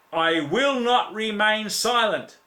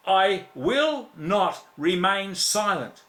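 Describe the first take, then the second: First: Slow and higher, each word driven home; firm declaration. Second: Slower again, weight on WILL; repeated firm declaration. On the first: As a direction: proclaim it like a vow from the pulpit. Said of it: "preacher declaring resolve". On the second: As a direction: drive the vow home a second time. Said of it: "preacher repeats resolve". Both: Real, not acted.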